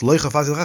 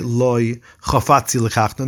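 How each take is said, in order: First: All the words run together without a pause. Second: There is a pause after the first word. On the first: I don't want to take her as a wife. The speaker calls it right. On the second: No, I want to take her. The speaker calls it wrong. "don't say"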